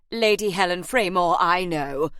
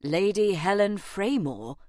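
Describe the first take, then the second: First: Loud, displeased interruption; agent's put-on voice, none too pleased. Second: Stunned echo of a title; mildly astonished, questioning; taken aback. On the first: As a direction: cut in, displeased to know this already. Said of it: "sounding none too pleased about it". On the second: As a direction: repeat the name as a baffled question. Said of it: "Harry blinked". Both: A narrator's reading.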